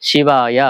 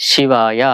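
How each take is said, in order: The two takes are said the same way.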